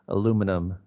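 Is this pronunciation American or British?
American. It is said in an American accent. "the stress is uh, way different than Americans"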